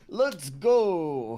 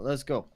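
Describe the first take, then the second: First: It is said loudly, with enthusiasm. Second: It is said flatly, without enthusiasm.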